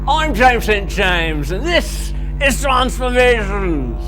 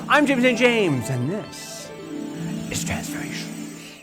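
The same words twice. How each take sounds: First: It is said in a put-on Australian accent. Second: It is said in his own natural accent.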